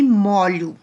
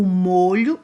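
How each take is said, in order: First: "molho" with an open O, like MÓ-lho. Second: "molho" with a closed O, like MÔ-lho. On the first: Teacher showing students the open O of the verb "molho". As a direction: say "molho" with a wide open first vowel, the verb form. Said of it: "aí eu pronunciei de um som aberto". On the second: Teacher contrasting for students the closed O of the noun "molho". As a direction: say "molho" with a tight closed first vowel, the noun for sauce. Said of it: "Mudou um pouquinho a pronúncia". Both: Shown as a demonstration.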